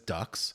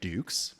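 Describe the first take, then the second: First: The name rhymes with 'tux'. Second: The name rhymes with 'nukes'. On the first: The speaker calls it wrong. "often mispronounced as Dux" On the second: The speaker calls it right. "like put up your Dukes"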